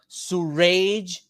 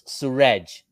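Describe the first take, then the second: First: The name ends sounding like the word rage. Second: The name ends without sounding like rage. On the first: The speaker calls it wrong. "as if I have an anger problem" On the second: The speaker calls it right. "I told him no, it's Suraj"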